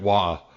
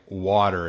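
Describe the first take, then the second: First: The word is said without its T sound. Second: The word is said with its T sound.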